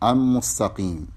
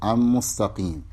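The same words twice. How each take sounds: No difference in how they are said.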